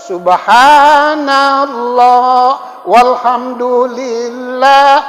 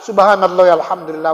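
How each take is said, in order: First: It is said very slowly. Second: It is said at a moderate pace.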